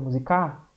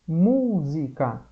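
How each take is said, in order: First: The stress is on the last syllable. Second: The stress is on the first syllable. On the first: The speaker calls it wrong. "não é o K o mais forte? Não, ele fica musicar" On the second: The speaker calls it right. "a gente fala música"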